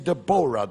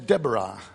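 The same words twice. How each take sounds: First: The name is said with a non-American pronunciation. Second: The name is said with an American pronunciation. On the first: "You say Deborah, don't you?" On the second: "The Americans say Deborah"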